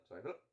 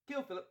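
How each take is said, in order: First: Low, softer British aside; apologetic aside. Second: High, punchy British delivery; emphatic plan step. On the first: Friend apologising to stepfather mid-plan, low aside. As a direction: drop the pitch and tuck in the apology. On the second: Friend announcing the plan to kill stepfather, high and emphatic. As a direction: pitch it up brightly in a British accent. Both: Acted.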